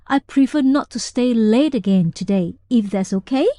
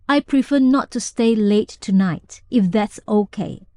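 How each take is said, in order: First: The voice rises at the end, smiley. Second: The voice falls steadily at the end.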